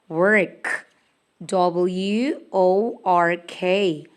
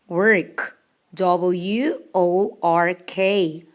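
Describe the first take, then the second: Both takes have the same delivery.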